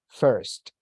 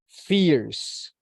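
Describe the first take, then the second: First: It has an e-like vowel and ends in st. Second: It sounds like fierce, with an s ending. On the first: The speaker calls it right. "it is first, como con una E" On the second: The speaker calls it wrong. "Don't say fierce, porque se entiende como fuerza"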